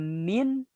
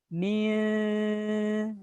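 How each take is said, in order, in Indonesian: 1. Kata ini berakhir dengan bunyi n yang jelas. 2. Kata ini berakhir dengan bunyi sengau yang mirip ng lembut. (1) "Tidak dibaca min" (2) "Tapi dibaca mirip huruf eng"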